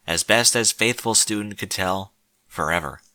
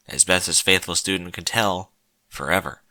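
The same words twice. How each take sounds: The two takes are said the same way.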